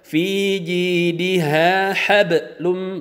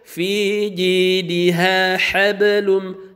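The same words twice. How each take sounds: First: The b sound gets a hard, separate bounce. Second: The b sound flows on with a light bounce. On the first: The speaker calls it wrong. "Tidak boleh" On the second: The speaker calls it right. "sambil mengalir"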